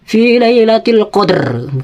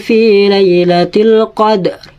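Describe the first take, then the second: First: The final r is sounded strongly. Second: The final r is sounded very faintly. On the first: The speaker calls it wrong. "bukan dibaca fi lailatul qadr, bukan kayak gitu" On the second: The speaker calls it right. "Ro-nya dibaca tapi harus pelan"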